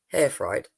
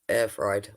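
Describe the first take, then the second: First: The first word starts with an h sound. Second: The first word starts with a vowel sound.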